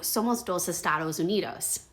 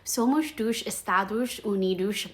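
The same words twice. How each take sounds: First: The S sounds are crisp, hissing s sounds. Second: The S sounds are soft, hushing sh sounds. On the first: The speaker calls it wrong. "Very Spanish, very phonetic" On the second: The speaker calls it right. "the actual phonetic way to say this in Portuguese"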